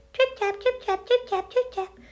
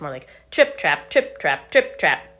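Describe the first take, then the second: First: High, light tripping footsteps; dainty high trip tap; light little trip tap. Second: Heavier, louder trip trap footsteps. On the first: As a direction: tiptoe the sound across like a tiny goat. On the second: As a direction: stomp it out a bit harder. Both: A narrator's reading. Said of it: "his feet made a little bit louder noise".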